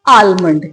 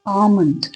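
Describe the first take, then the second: First: The L sound is clearly pronounced. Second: The L sound is left out. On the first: The speaker calls it wrong. "यही बोलते हैं ना आप लोग ज्यादातर" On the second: The speaker calls it right. "इसकी जो actual correct correct pronunciation है"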